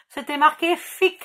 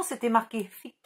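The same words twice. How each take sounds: First: "fic" punched louder, with a rising end; mocking her own English, "fic" stressed; emphatic correction. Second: Said in the usual way. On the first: Shown as a demonstration. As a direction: insist on the word "fic", louder and higher. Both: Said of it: "l'accent de merde quand je parle anglais".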